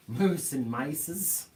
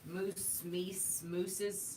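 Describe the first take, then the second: First: "mices" drawn out slowly as my-sez; slow, deliberate "Moose and mices"; slow joke plural. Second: Soft "Moose", "meese", "mooses" listed; joke plurals. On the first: Host riffs on silly plurals, slow and deliberate. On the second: Co-host lists silly moose plurals, soft and playful. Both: Pretend.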